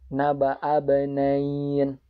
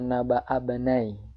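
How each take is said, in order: First: The last word ends with an n sound. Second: The last word ends on a vowel. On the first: The speaker calls it right. "itu harusnya ditambah dengan nun" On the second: The speaker calls it wrong.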